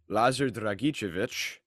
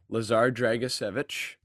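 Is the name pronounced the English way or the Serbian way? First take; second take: Serbian; English. First: The name is said with a Serbian pronunciation. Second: The name is said with an English pronunciation. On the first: "And the Serbian" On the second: "to the English-speaking people"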